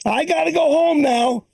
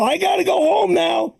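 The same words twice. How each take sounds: First: Lightly voiced old woman wanting to go home; a hint of a confused old lady; confused mother-in-law. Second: Insistent mother-in-law. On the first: Comic imitating his mother-in-law at four each day, lightly voiced. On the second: Retold or imitated. Comic imitating his mother-in-law as she gets up, insistent and higher. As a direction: push it up, she means it this time.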